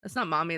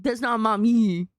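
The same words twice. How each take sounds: First: A low teasing mommy purr; lower mommy voice. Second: Louder, falling on mommy. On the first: Teasing chat about the mommy voice, low. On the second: Contrasting mom with mommy, louder. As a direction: lean into the word mommy. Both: Shown as a demonstration.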